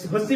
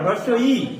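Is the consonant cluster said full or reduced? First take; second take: reduced; full. First: The cluster is reduced, giving a short 'hossi'. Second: The full cluster is said, giving 'hroswo i'. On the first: The speaker calls it wrong. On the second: The speaker calls it right.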